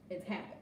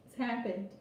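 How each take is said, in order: First: Much softer, lower echo; a hushed repeat; quiet echo. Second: Said in the usual way. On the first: Shown as a demonstration. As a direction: let it drop to a soft echo. Repeating a point for weight.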